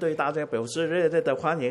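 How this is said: Spoken in a Taiwanese Mandarin style. "台湾"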